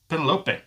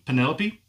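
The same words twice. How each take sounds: First: It is pronounced unlike the common female name. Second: It is pronounced like the common female name. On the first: "Or is it pronounced Penelope?" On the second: "Like the female name"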